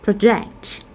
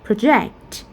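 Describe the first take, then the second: The two takes are said the same way.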